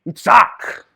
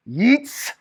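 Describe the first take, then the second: First: Yitzhak said in full, yits-HAHK, with the final K; saying Yitzhak. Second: Yitzhak said yits-HAHK, clipped and rising; saying Yitzhak. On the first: Teacher modelling Yitzhak for the class, careful pronunciation. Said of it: "how you say that". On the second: Teacher saying Yitzhak to students, clear model pronunciation. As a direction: sound out Yitzhak for the class. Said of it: "So you say his name". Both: Shown as a demonstration.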